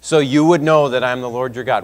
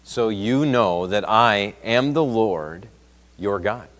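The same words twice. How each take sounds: First: Loud, higher, driving refrain; forceful preaching. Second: Each word laid down slowly; slow solemn emphasis. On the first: Preacher voicing God to the Israelites, loud and forceful. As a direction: hammer the refrain home. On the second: Preacher quoting God's words to the Israelites, slow and solemn. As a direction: let the Lord's words land slowly. Refrain quoted from scripture. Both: Acted.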